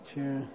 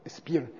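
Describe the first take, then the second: First: The word begins with a 'ch' sound. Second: The word begins with an 'sp' sound.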